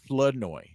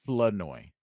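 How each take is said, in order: First: The R in the first syllable is dropped. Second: The R in the first syllable is dropped.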